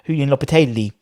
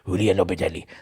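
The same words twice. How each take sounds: First: The name is said with an Italian-sounding accent. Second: The name is said with a Spanish-sounding accent. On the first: The speaker calls it wrong. "I don't know why I say it with an Italian accent" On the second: The speaker calls it right. "He's Spanish. That's better"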